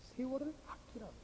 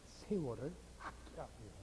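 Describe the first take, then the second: First: Soft but lifted in pitch; soft repeated reminder. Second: Low, quiet quote of the verse; hushed reminder. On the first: Preacher repeats the verse to the congregation, softly insistent. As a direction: repeat the verse quietly, without dropping the pitch. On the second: Preacher reminds congregation of the earlier verse, hushed. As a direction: bring it right down, low and soft. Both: Real, not acted.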